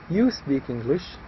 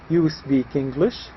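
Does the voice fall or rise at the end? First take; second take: falls; rises. First: The voice falls at the end. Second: The voice rises at the end.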